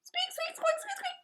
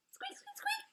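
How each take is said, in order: First: Very high tiny squeaking bird voice; little bird. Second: Very high, much softer tiny squeaks; little bird. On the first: The little bird greeting the Yeti in tiny squeaks. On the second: The unafraid bird squeaking back softly at the Yeti. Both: Acted.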